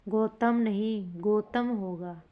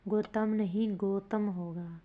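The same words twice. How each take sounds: The two takes are said the same way.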